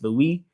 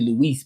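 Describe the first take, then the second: First: The name ends without any s sound. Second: The name ends with an audible s sound. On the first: The speaker calls it right. "it's Louis because you don't pronounce" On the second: The speaker calls it wrong. "It's not really Luis"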